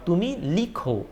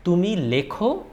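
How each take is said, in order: First: লিখো said lee-kho, with an "ee"; variant with i. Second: লেখো said le-kho, with an "eh"; variant with e. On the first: Teacher offers both correct forms, লিখো with "ee". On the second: Teacher offers both correct forms, লেখো with "eh". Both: Shown as a demonstration. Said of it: "both are correct".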